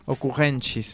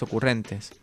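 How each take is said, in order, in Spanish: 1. Se pronuncia con sonidos portugueses. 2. Se pronuncia con sonidos latinos. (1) "¿cómo era en portugués?" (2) "En latín"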